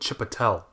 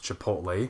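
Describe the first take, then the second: First: The name ends with a 'tel' sound. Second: The name ends with a 'lay' sound. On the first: The speaker calls it wrong. "We called it Chipotle" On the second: The speaker calls it right. "supposed to be pronounced Chipotle"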